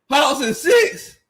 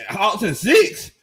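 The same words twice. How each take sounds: First: Slow, high, stretched disbelief on six; incredulous repeat. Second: Said in the usual way. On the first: Shown as a demonstration. Streamer rereading a chat prediction, slow and high with disbelief. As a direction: drag it out like you can't believe it.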